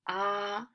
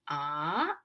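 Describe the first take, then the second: First: The pitch stays high and level. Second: The pitch climbs from low to high. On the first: "First tone is highest" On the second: "Second tone is from the low to up, climbing"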